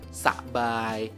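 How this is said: The syllables are said stiffly and separately. The speaker calls it wrong. "enggak usah sabai. Ya, ya kaku banget coy"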